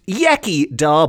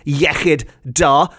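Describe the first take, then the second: First: The ch is said with an anglicized sound. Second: The ch is said with the Welsh throat sound. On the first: The speaker calls it wrong. "often pronounced Iechyd Da by people who haven't got their tongues around the correct pronunciation" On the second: The speaker calls it right. "the equivalent is Iechyd Da"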